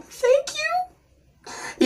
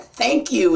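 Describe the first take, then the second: First: A high, cracking squeak of a thank you, much softer; choked-up thanks that cracks into a high squeak; voice breaking. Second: Said in the usual way. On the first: Retold or imitated. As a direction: let the voice break up high while trying not to cry. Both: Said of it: "But it came out like this".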